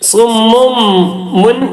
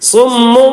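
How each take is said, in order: First: The word ends with a clear n sound. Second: The final n is turned into an m sound. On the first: The speaker calls it wrong. "മുൻ എന്ന് പറയാൻ പറ്റൂല" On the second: The speaker calls it right. "നൂനിനെ മറിച്ച് മീമാക്കി കൊടുത്തു"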